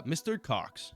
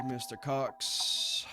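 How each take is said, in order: First: Said in the usual way. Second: Drawn-out slow "Mister Cox"; slow menacing. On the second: Acted. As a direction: stretch "Mister Cox" out slowly.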